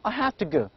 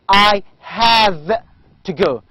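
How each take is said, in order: First: The word have ends with an f sound. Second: The word have ends with a v sound. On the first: The speaker calls it right. "In everyday English, we say I have to go. ... So this v can be replaced by the sound f" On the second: The speaker calls it wrong. "We do not say I have to go"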